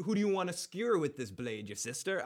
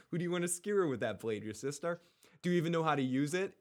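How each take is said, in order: First: Said in the usual way. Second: Shaky attempt at an accent, quick; amateur accent imitation of a TV father; Ned Stark. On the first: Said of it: "Ned Stark says that line". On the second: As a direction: put on his accent, higher and hurried. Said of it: "but with the accent".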